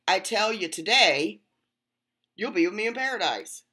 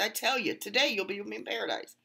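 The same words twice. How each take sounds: First: The pause comes after the word today. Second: The pause comes before the word today.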